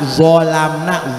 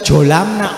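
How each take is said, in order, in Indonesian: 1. Kata ini dimulai dengan bunyi z. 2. Kata ini dimulai dengan bunyi j. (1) "zo baca" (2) "itu bukan jolamna"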